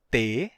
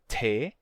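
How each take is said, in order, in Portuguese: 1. O T é dito sem sopro de ar. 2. O T é dito com sopro de ar. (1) "nosso T de verdade, que é T" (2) "e não T"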